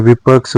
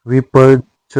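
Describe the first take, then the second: First: विपक्ष with joined ksh; correct cluster. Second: विपक्ष broken as "vipach-chh"; wrong cluster. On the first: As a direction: say विपक्ष as "vipaksh". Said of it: "होता है". (विपक्ष में शुद्ध क्ष) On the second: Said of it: "नहीं होता है". (विपक्ष में छ) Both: Shown as a demonstration.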